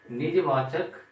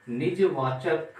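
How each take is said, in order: First: Said in the usual way. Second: Drawn out slowly, word by word; slow dictation. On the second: Shown as a demonstration. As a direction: say it slowly for the class to note. (धीरे-धीरे बोलकर लिखवाना)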